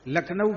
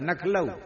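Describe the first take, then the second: First: The word begins with an L sound. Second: The word begins with an N sound. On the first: This is the standard form of the name. "लखनऊ बोले नहीं" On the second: This is how old Braj residents say it. "पर नखलऊ"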